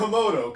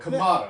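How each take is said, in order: First: The first syllable sounds like 'ko'. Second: The first syllable sounds like 'ka'. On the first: The speaker calls it wrong. "Not the Komodo" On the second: The speaker calls it right.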